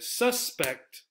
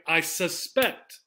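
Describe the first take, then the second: First: SUS-pect, high on the first syllable then falling; first-syllable stress. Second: Slow "I sus-PECT", stress on the end; second-syllable stress. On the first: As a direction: hit "sus" in suspect. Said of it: "we stress the first syllable". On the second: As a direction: land on PECT in suspect. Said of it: "we stress the second syllable". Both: Shown as a demonstration.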